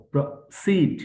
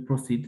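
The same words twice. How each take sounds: First: proceed split as pro-SEED, second syllable higher; teacher's demo of proceed, stressed on the end; push on second syllable. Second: proceed run together evenly, no push on "seed"; unstressed wrong version. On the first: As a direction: punch "seed" in proceed after a tiny break. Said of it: "এখানে একটা ধাক্কা হবে". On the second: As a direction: say proceed in one level go. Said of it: "আমরা এইভাবে বলি proceed". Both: Shown as a demonstration.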